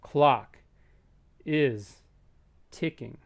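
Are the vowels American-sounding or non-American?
American. The vowels are said with an American accent. "put the American accent on and it has that sound"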